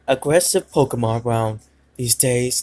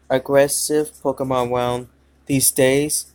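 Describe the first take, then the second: First: It is read in a put-on character voice. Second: It is read in the speaker's natural voice. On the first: The speaker calls it right. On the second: The speaker calls it wrong.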